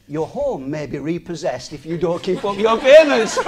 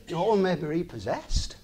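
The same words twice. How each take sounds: First: Can't keep a straight face reading the warning; laughing quote. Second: Quieter, lower, no laugh now; sober. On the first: Retold or imitated. Quoting the mortgage advert to viewers, laughing. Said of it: "We shouldn't laugh". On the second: Real, not acted. Repeating the advert warning to viewers, sober and quiet. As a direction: say it as a sad truth.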